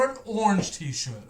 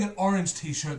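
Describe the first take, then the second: First: Orange squashed into one syllable, "ornj"; American pronunciation. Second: Orange in two syllables, ORR-inj; British pronunciation. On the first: Retold or imitated. Brit mocking how Americans say orange, American pronunciation. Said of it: "tell me what an orange is". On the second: Shown as a demonstration. Brit insisting on his own word, British pronunciation. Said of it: "not an orange t-shirt".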